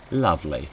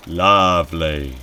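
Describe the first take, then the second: First: Said in the usual way. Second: "Lovely" stretched slowly and said louder; drawn-out lovely. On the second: Acted. Reacting to a horrible dream, "Lovely" long and loud. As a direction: draw out "Lovely" with a falling tune. Repeats it for effect.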